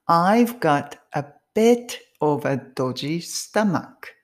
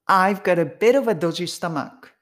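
First: It is said slowly with each word separate. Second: It is said fast with words run together.

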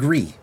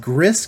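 First: The name is said with a silent final s. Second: The name is said as spelled, final s sounded. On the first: The speaker calls it right. "but it's called Gris" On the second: The speaker calls it wrong. "A lot of you people might pronounce it as Gris, because it's spelled G-R-I-S"

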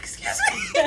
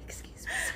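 First: It is said in a full, loud voice. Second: It is said in a whisper.

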